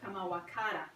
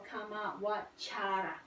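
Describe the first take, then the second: First: The middle consonant is a 'k' sound. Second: The middle consonant is a 'ch' sound. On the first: The speaker calls it wrong. "instead of Kamawakara" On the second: The speaker calls it right. "C A is pronounced as cha instead of ka"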